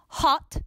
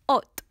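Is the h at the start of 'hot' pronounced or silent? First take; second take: pronounced; silent. First: The h at the start is pronounced. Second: The h at the start is silent.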